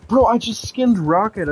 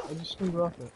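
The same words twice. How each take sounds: First: High, loud horrified realisation; loud, stunned "I just skinned Rocket"; shocked realisation. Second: Said in the usual way. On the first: Real, not acted. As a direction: blurt it out as it hits you. Realising he skinned his pet.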